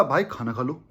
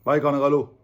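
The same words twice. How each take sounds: First: Soft, lower, tender "भाई खाना खा लो"; caring. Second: "भाई खाना खा लो" said flat and dutiful; offhand. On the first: Friend urging his buddy to eat, soft and caring. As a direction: say "भाई खाना खा लो" gently, like you truly care. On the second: Just saying the words to a friend, offhand and unfeeling. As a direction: toss off "भाई खाना खा लो" without real feeling. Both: Shown as a demonstration. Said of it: "अलग feel है".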